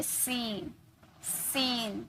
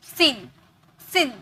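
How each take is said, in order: First: सीन with long drawn "ee", softly; stretched long vowel. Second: सीन with a short i, "sin"; short quick vowel. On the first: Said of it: "टान कर ले रहे हैं". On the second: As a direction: say सीन at once, no stretch. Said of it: "तुरंत बोलते". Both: Shown as a demonstration.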